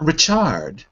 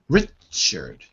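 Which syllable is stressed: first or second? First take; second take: second; first. First: The stress is not on the first syllable. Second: The stress is on the first syllable. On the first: The speaker calls it wrong. "but not Richard" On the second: The speaker calls it right. "So the first syllable is stressed"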